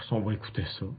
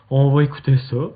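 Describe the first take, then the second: First: Softly under the breath; quiet. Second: Louder, rising on va. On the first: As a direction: murmur it quietly. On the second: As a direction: call it out louder. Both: Shown as a demonstration.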